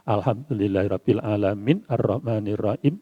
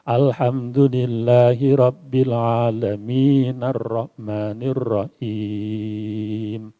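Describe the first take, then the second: First: One breath, but the verse end is cut off. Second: The verse end runs straight into the next word. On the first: Each verse is stopped at its end. "bernafas satu nafas tapi tidak disambungkan huruf akhirnya" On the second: The verses are read continuously. "yang dibaca panjang tapi wasol"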